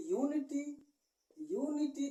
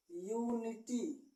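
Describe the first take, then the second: First: यूनिटी said quickly and higher, starting yu; quick spoken reading. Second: यूनिटी said very slowly; slow demo word. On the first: Teacher reads the word aloud for students. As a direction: read यूनिटी briskly, twice. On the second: Teacher writes an example word. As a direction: draw out यूनिटी clearly. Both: Shown as a demonstration. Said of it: "इसको हम क्या पढ़ेंगे".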